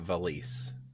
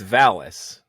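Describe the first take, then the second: First: The name is said in a Japanese style. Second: The name is said in an English style. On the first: The speaker calls it wrong. "not Valis" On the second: The speaker calls it right. "It's Valis"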